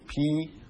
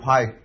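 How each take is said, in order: First: The vowel is an ee sound. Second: The vowel is not an ee sound. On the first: This is the true name of the letter. "其实这个音名真正是P" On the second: This is the habitual reading used in mathematics. "但因为我们数学呢常常习惯读Pi, 所以读Pi"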